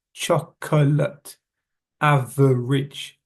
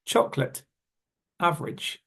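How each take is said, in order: First: "Chocolate" slowly in three beats, choc-o-late; "average" drawn out as av-er-age; every syllable stressed. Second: "Chocolate" in two syllables, choc-lit; "average" shortened to av-rij; missing middle syllable. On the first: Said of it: "stressing every syllable". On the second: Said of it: "We miss the middle syllable". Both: Shown as a demonstration.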